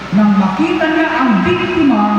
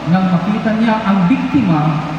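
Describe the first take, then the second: The two takes are said the same way.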